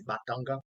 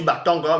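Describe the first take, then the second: First: Batanga with a clear open "a" in every syllable; proper Batanga. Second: Batanga with a nasal, French-style middle "tan"; accented Batanga. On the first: Preacher giving the proper Douala form, clear vowels. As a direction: say Batanga the original Douala way, "Ba-ta-nga", no nasal. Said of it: "mais normalement c'est". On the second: Preacher showing how the accent says Batanga, nasal middle. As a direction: say Batanga the way the accent bends it, "Ba-tɑ̃-ga". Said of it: "c'est avec l'accent qu'on dit". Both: Shown as a demonstration.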